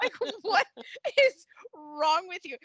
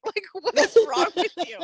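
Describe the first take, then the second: First: Slower, leaning hard on "is"; slow emphatic repeat. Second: Loud and higher, laughing through the question; laughing outburst. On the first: Host repeating her disbelief at the commissioner, slow and emphatic. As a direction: spell it out slowly, pressing "is". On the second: Host laughing at the commissioner's cliffhanger, loud incredulous laugh. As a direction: blurt it out mid-laugh, louder. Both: Real, not acted.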